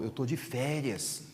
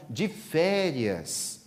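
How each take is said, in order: First: Softer, slow and unbothered; lazy vacation voice. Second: Very slow, stretched de férias; drawn-out vacation. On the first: Friend telling Divaldo he is on vacation, soft and slow. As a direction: let it drop softly, no worries at all. Friend shrugging off his chores. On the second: Friend savouring his vacation to Divaldo, very slow drawl. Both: Acted.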